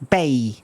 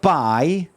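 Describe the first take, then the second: First: The vowel is a Scottish 'ay' sound. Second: The vowel is a standard 'eye' sound. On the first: "you change it for a, a" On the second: "Instead of buy"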